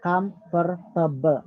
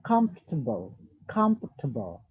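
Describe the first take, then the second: First: "comfortable" said slowly in four syllables, "com-for-ta-ble"; "comfortable" said in four full syllables; wrong four-syllable demo. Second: "comfortable" said in three syllables, "comf-ta-ble"; "comfortable" said the right way, in three syllables. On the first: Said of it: "not comfortable". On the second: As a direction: give the right "comfortable", swallowing the middle syllable. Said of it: "Comfortable has three syllable". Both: Shown as a demonstration.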